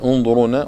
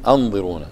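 First: The word begins with a short u vowel. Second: The word begins with a short a vowel. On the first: Wait for us. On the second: Give us time.

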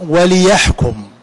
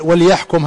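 First: The l sound is followed by an i vowel. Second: The l sound carries no vowel after it. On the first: It gives the purpose for which it was sent. "وفي قراءة وليحكم، وتكون اللام لام التعليل" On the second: It is a direct command to judge. "هذه لام الأمر"

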